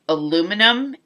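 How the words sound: The word is said the American way. The speaker calls it wrong. "we Americans pronounce aluminum incorrectly"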